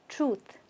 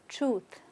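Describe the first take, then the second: The two takes are said the same way.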